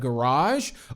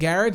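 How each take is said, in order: First: The word is said with the speaker's usual pronunciation. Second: The word is said with a British pronunciation. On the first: "instead of" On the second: "sometimes I might think about saying garage"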